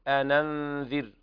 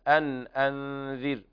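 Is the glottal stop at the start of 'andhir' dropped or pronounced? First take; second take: dropped; pronounced. First: The glottal stop is dropped and the words link. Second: The glottal stop is pronounced clearly between words. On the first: "قرأ ورش بالنقل" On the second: "وقرأ حفص بالتحقيق النون الساكنة"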